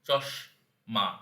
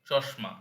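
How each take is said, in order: First: The word is split with breaks between syllables. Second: The word is said smoothly without breaks.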